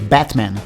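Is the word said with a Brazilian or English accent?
English. It is said with an English accent. The listener understood it. The speaker calls it right. "ele só entendeu quando eu falei Batman"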